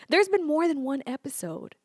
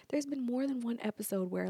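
First: Said in the usual way. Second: Conspiratorial whisper. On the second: Shown as a demonstration. To viewers, sharing a juicy secret, whispered. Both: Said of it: "Get this".

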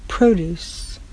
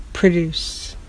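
First: Produce stressed on PRO, long O; produce, first syllable stressed; noun produce. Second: Produce stressed on DUCE, weak first vowel; produce, second syllable stressed; verb produce. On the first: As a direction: say produce as PROH-dooce, the noun. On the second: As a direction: say produce as pruh-DOOCE, the verb. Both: Shown as a demonstration. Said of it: "Spelled exactly the same way".

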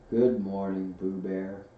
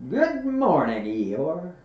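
First: Gloomy Eeyore. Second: High, loud bright greeting; cheery Pooh. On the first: Old donkey answers the bear's greeting, gloomily. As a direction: return the greeting without any cheer. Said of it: "said Eeyore gloomily". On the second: Pooh greets the old donkey, high and cheery. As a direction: call it out cheerfully. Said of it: "they called out cheerfully". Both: A narrator's reading.

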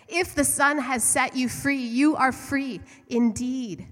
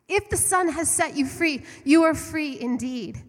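First: Slow, louder proclaiming of the verse; scripture quote. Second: Higher and louder, driving the verse home; emphatic repeat. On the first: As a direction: read it out as a solemn promise. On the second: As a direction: preach it again with fire. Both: Acted. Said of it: "There are scriptures that say".

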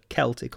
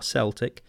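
First: Celtic with a K sound, KEL-tik; hard-C Celtic. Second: Celtic with an S sound, SEL-tik; soft-C Celtic. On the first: Unsure podcaster offering one way to say it, Celtic with hard K. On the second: Unsure podcaster offering the other way to say it, Celtic with soft S. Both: Shown as a demonstration. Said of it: "depending how to say this".

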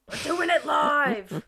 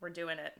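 First: Loud, high, drawn-out declaration; mock outburst. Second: Said in the usual way. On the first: Host retelling giving up on tech troubles, loud mock outburst. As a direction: belt out the defiant decision. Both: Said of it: "And I was like".

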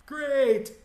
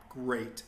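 First: High, loud sarcastic cry; exasperated outburst. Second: Said in the usual way. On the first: Retold or imitated. Employee sure he's about to get fired, loud sarcastic exasperation. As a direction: burst out in mock celebration, pitch way up.

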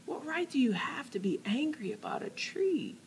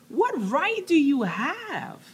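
First: Hushed unvoiced whisper. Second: Higher, slow, pressing challenge; challenging. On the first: God challenging Jonah again, now in a whisper. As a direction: drop it to a whisper. Same words then whispered. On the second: Acted. God challenging Jonah, slow pressing challenge. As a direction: demand it slowly. Preacher voicing God's challenge.

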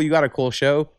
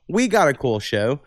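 First: Said in the usual way. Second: WE punched in contrast, the rest easing off; stress on WE. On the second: Real, not acted. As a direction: lean on "We" to claim it too. Contrast of you and we.

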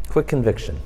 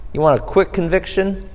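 First: Low, soft repeat of the phrase; quiet low echo. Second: Said in the usual way. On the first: Shown as a demonstration. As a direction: echo it quietly, dropping the pitch.

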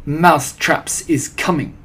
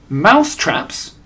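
First: Put-on slow, accented, restrained shout; lightly voiced witch proclamation, drawn out; shouting Grand High Witch. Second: Higher, louder startled echo; surprised cry. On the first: Head witch announcing next step to followers, mildly shouted. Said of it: "raised her voice louder than ever and shouted". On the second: Witches echoing their leader's announcement, surprised. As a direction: throw it back in astonishment. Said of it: "cried the witches". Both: A narrator's reading.

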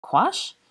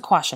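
First: High, sharply rising "Quash"; questioning echo. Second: Said in the usual way. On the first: A narrator's reading. Granger repeats Draco's odd word back, questioning echo. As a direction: lift "Quash" right up into a question. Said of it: "repeated Granger".

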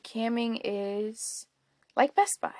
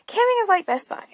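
First: Said in the usual way. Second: High emphatic repeat. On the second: Shown as a demonstration. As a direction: jump way up in pitch on the repeat. Repeats the line for effect.

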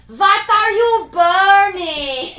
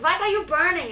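First: Very slow, high, sing-song holler; exaggerated mock shout. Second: Raised, loud mock-accented question; imitated film character. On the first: Repeating for someone who can't hear, huge drawn-out mock shout. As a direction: bellow each word slowly, hammed up. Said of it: "she can't hear you". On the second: Retelling the fireplace scene, raised imitated question. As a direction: call it out as a film impression.

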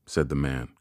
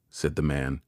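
No difference in how they are said.

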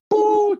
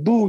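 First: Put-on loud, very high child's boo; piercing toddler jeer, mimicked; imitating little girl. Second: Said in the usual way. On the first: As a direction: squeal it like a tiny heckler. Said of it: "She like". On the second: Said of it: "I be like".

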